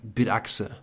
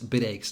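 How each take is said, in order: First: The second part sounds like German 'achse'. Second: The second part sounds like English 'eggs'. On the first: The speaker calls it wrong. "they pronounce it completely wrong" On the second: The speaker calls it right. "it's bid eggs"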